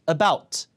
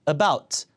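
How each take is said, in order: The two takes are said the same way.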